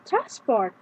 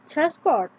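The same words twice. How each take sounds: First: The stress is on the first syllable. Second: The stress is on the second syllable. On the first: It is used as a noun. "The noun, however, is stressed differently" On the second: It is used as a verb. "Mostly, the stress is on the second syllable"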